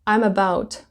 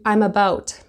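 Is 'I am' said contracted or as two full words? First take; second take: contracted; contracted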